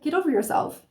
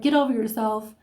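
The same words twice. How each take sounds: First: It is said in a gentle, encouraging tone. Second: It is said in a harsh, negative tone.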